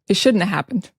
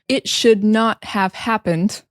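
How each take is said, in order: First: The words are contracted and run together. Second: Each word is said fully and separately. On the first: "we say" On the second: "instead of saying"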